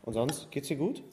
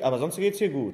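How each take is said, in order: First: Sonst geht's dir gut said as an honest question with a light rise; friendly, genuine check-in, no weight on any word; plain sincere asking. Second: Dir in sonst geht's dir gut leaned on, the phrase falling at the end; ironic, needling tone; pointed stress on dir. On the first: Speaker showing how the same question can sound harmless. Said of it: "es geht um die Betonung". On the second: Speaker showing how stress on dir makes it pointed. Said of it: "liegt an der Betonung". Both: Shown as a demonstration.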